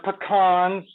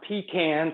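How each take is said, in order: First: The word uses a non-Southern pronunciation. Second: The word uses a Southern pronunciation. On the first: The speaker calls it right. "These are pecans" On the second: The speaker calls it wrong. "not pecans, like y'all might say down there in South Carolina"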